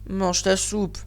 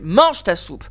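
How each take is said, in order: First: It is said flatly, like an ordinary statement. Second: It is said forcefully, with strong emphasis. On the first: It is a plain statement. The speaker calls it wrong. "Je ne suis pas dans une phrase classique. Je ne suis pas en train de dire" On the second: It is a command. The speaker calls it right.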